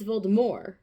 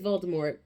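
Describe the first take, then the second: First: The final T sound is silent. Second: The final T sound is pronounced. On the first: The speaker calls it right. "with no T" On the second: The speaker calls it wrong. "with a T at the end"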